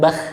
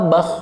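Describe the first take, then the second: First: The syllable is said with a light, thin sound. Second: The syllable is said with a heavy, thick sound. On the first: The speaker calls it wrong. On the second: The speaker calls it right. "Karena sifatnya tebal"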